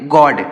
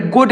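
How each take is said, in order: First: गॉड with the in-between open o, between o and aa; correct way. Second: गोड with a pure long o, like gode; wrong way. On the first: Teacher giving children the right sound, गॉड said with open aw. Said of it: "हम क्या पढ़ेंगे". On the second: Teacher warning children against saying गोड as gode. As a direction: say गोड as gode, the sound to avoid. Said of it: "या फिर गोड नहीं पढ़ेंगे". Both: Shown as a demonstration.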